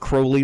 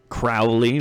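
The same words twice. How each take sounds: First: The first syllable rhymes with crow. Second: The first syllable rhymes with cow. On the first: The speaker calls it right. "it's pronounced Crowley like holy" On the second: The speaker calls it wrong. "not Crowley like, I don't know, meow"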